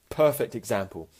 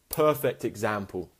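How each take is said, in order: Both takes have the same delivery.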